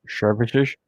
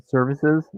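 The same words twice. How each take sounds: First: "Services" with both s sounds slurred to sh; lisped. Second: Said in the usual way. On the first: Shown as a demonstration. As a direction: lisp "Services" like "shervishesh". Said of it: "With the lisp, it sounds funny".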